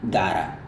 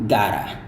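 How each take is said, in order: First: The t sounds like a soft flapped d. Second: The t sounds like a soft flapped d.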